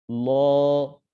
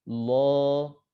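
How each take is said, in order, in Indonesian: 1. Suku kata ini berbunyi tebal dengan vokal yang lebih gelap. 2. Suku kata ini berbunyi tebal dengan vokal yang lebih gelap.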